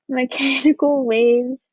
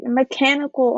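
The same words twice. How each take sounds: First: Laughing through the corrected word Mechanical, slower; a real sheepish laugh on Mechanical; embarrassed laugh. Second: Said in the usual way. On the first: Real, not acted. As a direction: giggle at your own typo while saying Mechanical. Laughs at own slide mistake. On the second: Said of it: "this is supposed to say mechanical".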